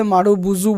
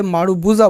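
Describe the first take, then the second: First: मारुबुजू ending in a "zoo" sound; the variant name मारुबुजू, last syllable "joo/zoo"; alternative pronunciation. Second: मारुबुजा ending in a "zaa" sound; the variant name मारुबुजा, last syllable "jaa/zaa"; alternative pronunciation. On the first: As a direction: say मारुबुजू with a final "oo" vowel. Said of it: "बहुत से लोग इसे मारुबुजू बोलते हैं". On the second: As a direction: say मारुबुजा with a final "aa" vowel. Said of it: "बहुत से लोग इसे मारुबुजा बोलते हैं". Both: Shown as a demonstration.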